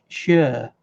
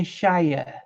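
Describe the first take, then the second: First: "Shire" reduced to a short "shuh"; slow "Shire" said as "shuh", no long i; British-style Shire. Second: "Shire" ending like the word "shy-er"; American-style Shire. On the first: Correcting the co-host on the county ending, British-style Shire. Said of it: "Americans always say Shire, and it's Shire". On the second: Correcting the co-host on how Americans say it, American-style Shire. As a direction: say "Shire" with a full long-i vowel. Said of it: "Americans always say Shire". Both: Shown as a demonstration.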